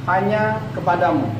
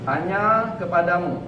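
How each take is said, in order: No difference in how they are said.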